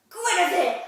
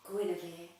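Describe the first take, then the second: First: Name blurted out very loud; blurted shout. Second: Said in the usual way. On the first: Retold or imitated. Finally remembering her line onstage, a loud blurted name. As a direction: burst it out at full volume. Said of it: "in the end I went". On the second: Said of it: "I'm supposed to go".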